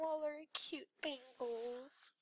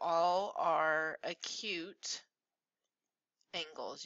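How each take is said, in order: First: It is said in a small, cute voice. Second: It is said in an ordinary speaking voice.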